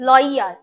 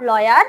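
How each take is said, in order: First: "lawyer" said as "loi-yar" with emphasized y; correct pronunciation. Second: "lawyer" said as "lo-yar", y glide unstressed; wrong pronunciation. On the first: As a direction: model "lawyer" with a stretched i-y glide. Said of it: "it's lawyer". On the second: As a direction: demonstrate the mistaken "lawyer" without the long i-y. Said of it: "not lawyer". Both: Shown as a demonstration.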